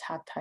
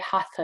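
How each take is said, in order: First: The middle consonant is a plain t. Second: The middle consonant is a th sound. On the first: This follows the original language's sounds. The speaker calls it right. "we might more correctly pronounce it as Hatha Yoga" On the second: This is the common everyday pronunciation. The speaker calls it wrong. "we tend to say Hatha Yoga"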